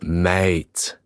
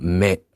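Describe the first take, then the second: First: The word is said with an Australian accent. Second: The word is said without an Australian accent. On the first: The speaker calls it right. "it's mate. Say it" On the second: The speaker calls it wrong. "You never say it right. It's not mate"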